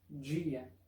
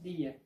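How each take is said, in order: First: The first sound is like English j. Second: The first sound is a plain d. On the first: This is how the speaker's region says it. "como acá donde vivo, la pronunciación correcta es dia" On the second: This is how some regions say it. "En algunas regiones que hablan portugués, la pronunciación es día, como en español"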